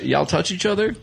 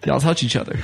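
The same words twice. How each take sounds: First: Touch each other, lifted into a rising question; asked as a question. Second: Touch each other, falling flat like a statement. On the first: Drunk friend asking the two in the car, as a rising question. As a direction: ask Y'all touch each other? with the pitch going up at the end. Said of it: "he's questioning". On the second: Drunk friend saying it to the two in the car, as a flat statement. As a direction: say Y'all touch each other. dropping at the end, no question. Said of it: "or is he making a statement". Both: Retold or imitated.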